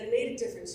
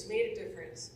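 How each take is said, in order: First: "You made a difference" with "made" lifted high and rising; first take pitched up and rising on "made"; emphatic quote. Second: Said in the usual way. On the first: Retold or imitated. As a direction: lift "made" up into a rising call. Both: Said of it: "Terry Dorsett said".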